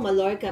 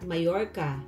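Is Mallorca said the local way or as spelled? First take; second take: as spelled; local. First: The name is said as it is spelled. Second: The name is said the way locals say it. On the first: "pag binasa mo Mallorca" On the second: "they pronounce it at Mallorca"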